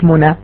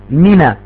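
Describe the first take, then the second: First: The first syllable has an 'oo' vowel. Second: The first syllable has an 'ee' vowel. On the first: The speaker calls it wrong. "Das heißt nicht Muna" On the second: The speaker calls it right. "Mina. M-I-N-A"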